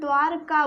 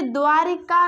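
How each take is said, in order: First: No vowel comes between 'dvaar' and 'ka'. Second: An 'i' vowel comes between 'dvaar' and 'ka'. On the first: The speaker calls it right. "द्वारका बोलते हैं" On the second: The speaker calls it wrong. "इसलिए इसे द्वारिका ना बोलते हुए"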